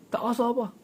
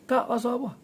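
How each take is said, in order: No difference in how they are said.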